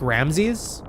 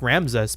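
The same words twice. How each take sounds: First: The name is said with an E vowel sound. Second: The name is said without an E vowel sound. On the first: "but like with an E" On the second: "he wasn't saying Ramses like Ramses"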